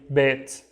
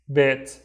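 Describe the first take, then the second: The two takes are said the same way.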